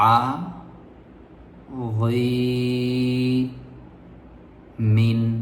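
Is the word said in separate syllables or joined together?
separate. The syllables are said separately with breaks between. "একটা একটা করে বলতে পারেন কিনা এভাবে"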